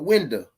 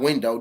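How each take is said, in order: First: The word has a local regional pronunciation. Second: The word has a standard, non-regional pronunciation. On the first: The speaker calls it right. "That's how we say it down here" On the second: The speaker calls it wrong. "Not window"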